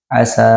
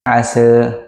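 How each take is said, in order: First: The final vowel is a plain open 'a'. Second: The final vowel is fronted toward 'e'. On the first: "dengan fathah biasa" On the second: "dengan taklil"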